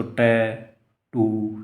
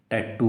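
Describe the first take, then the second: First: tattoo broken slowly into two syllables; split into syllables. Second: Said in the usual way. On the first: Shown as a demonstration. Teacher showing a student what syllables are, tattoo slowly split in two. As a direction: say tattoo as टै, pause, टू. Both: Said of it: "ये दोनों syllable हैं इसके".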